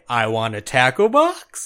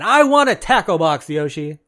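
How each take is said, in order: First: It is said like a question. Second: It is said like an exclamation.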